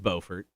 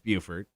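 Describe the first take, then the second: First: The name begins with a 'bo' sound. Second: The name begins with a 'byoo' sound. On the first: This is the place in North Carolina. "In North Carolina, it is Beaufort" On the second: This is the place in South Carolina. "and in South Carolina, it's Buford"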